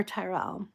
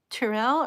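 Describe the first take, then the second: First: Second try at the name Tyrell, fuller first syllable; tentative Tyrell, first syllable given full weight; alternative pronunciation guess. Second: First try at the name Tyrell, short first syllable; tentative Tyrell, first syllable reduced; first pronunciation guess. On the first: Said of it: "Feel free to correct me". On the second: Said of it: "Please correct me". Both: Shown as a demonstration.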